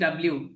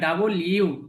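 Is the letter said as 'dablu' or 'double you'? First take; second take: dablu; double you. First: It is squeezed into a short 'dablu'. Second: It is said fully as 'double you'. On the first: The speaker calls it wrong. "আমরা অনেকে বলি ডাব্লিউ" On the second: The speaker calls it right. "এটা ডাব্লিউ না, ডাবল ইউ"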